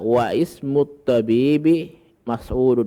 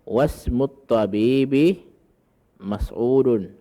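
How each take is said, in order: First: The hamza before 'ismu' is pronounced separately. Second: The hamza is dropped, linking 'wa' into 'smut'. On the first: The speaker calls it wrong. "Aslinya adalah ... Itu salah" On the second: The speaker calls it right. "tidak dibaca hamzah wasalnya"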